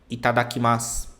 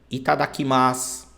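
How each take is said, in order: The two takes are said the same way.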